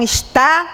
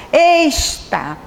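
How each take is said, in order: First: Over-accented "está", weight on TÁ, rising; ênfase exagerada. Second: "está" with a long, heavy ES and a falling TÁ; stress on wrong syllable. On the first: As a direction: push the final TÁ of "está" up. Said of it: "acentua demais uma palavra". ("está" com o TÁ forçado e subindo) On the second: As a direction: stretch and punch the first syllable, ES, of "está". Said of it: "eu caprichei mais no ex". ("está" com a tônica trocada, caprichando no ES) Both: Shown as a demonstration.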